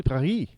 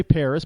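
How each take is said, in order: First: Paris as "pah-REE"; throaty R and silent S in Paris; French pronunciation. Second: Paris as "PAIR-iss"; American pronunciation. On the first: Correcting American usage, French-style Paris. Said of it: "but it's act". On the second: Admitting how Americans say it, English-style Paris. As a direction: sound the final S in Paris. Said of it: "I know we say Paris". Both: Shown as a demonstration.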